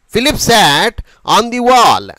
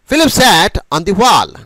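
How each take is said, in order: First: It is read slowly and carefully, word by word. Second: It is spoken naturally, like everyday conversation. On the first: "ఈ విధంగా మనం పలకడం జరుగుతుంది" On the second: "ఏదో మాట్లాడుతున్నాము అనేటువంటి ఒక ఫీలింగ్తో వేరే వాళ్ళతో మాట్లాడుతునేటప్పుడు"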